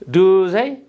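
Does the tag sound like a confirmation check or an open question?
open question. Said with the intonation of an open question. The speaker calls it wrong. "you don't have to pronounce like this"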